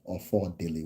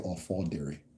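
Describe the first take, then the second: First: The name is said with an L sound. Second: The name is said with an R sound. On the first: The person comes from an area that uses L's. "Ofodile with an L" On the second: The person comes from the speaker's own area. "we say Ofodiri"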